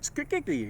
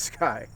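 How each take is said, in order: First: The name is said with several syllables. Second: The name is said as one syllable. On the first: The speaker calls it wrong. "I tried Skikiki" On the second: The speaker calls it right. "but it's it's Sky"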